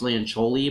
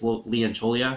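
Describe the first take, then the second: First: The name ends without a final vowel syllable. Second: The name ends with an extra final vowel syllable. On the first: The speaker calls it wrong. "I thought it was Leoncholi" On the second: The speaker calls it right. "but it looks like it's Leoncholia"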